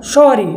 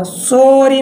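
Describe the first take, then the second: First: सॉरी with open "aw", falling; short open O. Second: सॉरी as a drawn-out "so-ree"; wrong long O. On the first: Teacher showing how to say it, सॉरी with open "aw". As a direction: say सॉरी as a quick "saw-ree". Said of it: "तो इस प्रकार से बोलना". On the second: Teacher showing what not to say, सॉरी with slow long "oh". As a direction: stretch a closed "oh" in सॉरी, slowly. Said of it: "सॉरी नहीं बोलना". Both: Shown as a demonstration.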